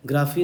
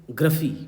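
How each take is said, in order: First: "ग्राफी" with a long open aa, graa-fee; the version to avoid, "ग्राफी" with a full first vowel; wrong pronunciation. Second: "ग्रफी" with a short schwa, gruh-fee; correct pronunciation. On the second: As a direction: reduce the first vowel of "ग्रफी" to uh. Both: Shown as a demonstration. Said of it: "ग्राफी नहीं".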